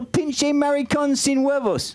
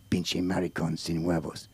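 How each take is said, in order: First: High, drawn-out Spanish from a tourist; clueless tourist's slow, high ordering voice; eager tourist. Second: Very deep, soft, slow Mexican voice; low, drawn-out Mexican character voice; Mexican helper. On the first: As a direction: parrot the phrase proudly, pitched way up. Naive tourist repeats the order. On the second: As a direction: teach the Spanish phrase slowly in a low voice. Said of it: "That's my Mexican". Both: Acted.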